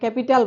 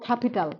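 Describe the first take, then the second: First: The first k sound has no puff of air. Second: The first k sound has a puff of air. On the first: "আগে ক্যাপিটাল বলতাম" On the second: "আমরা এখন বলবো ক্যাপিটাল"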